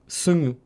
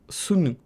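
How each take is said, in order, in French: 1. La consonne du milieu est nasale, prononcée par le nez. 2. La consonne du milieu est nasale, prononcée par le nez.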